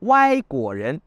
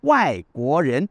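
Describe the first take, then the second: First: It is said with the playful slang tones. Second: It is said with the standard Mandarin tones. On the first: The words read as crooked nuts, a joke for foreigners. "« Wai » de travers, pas droit, « guo ren », les fruits à coque" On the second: The words mean person from an outside country. "cela se dit normalement"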